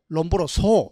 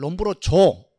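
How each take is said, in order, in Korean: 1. 마지막 음절은 s 소리로 시작합니다. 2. 마지막 음절은 z 소리로 시작합니다. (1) "미국 가서 공부한단 말이죠" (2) "독일식 발음으로 읽어버립니다"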